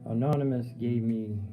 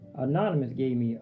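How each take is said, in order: First: The voice is fuller and supported from the abdomen. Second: The voice is tight and produced from the throat. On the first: The speaker calls it right. "I need to talk from the abdomen" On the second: The speaker calls it wrong. "I'm talking from my throat again"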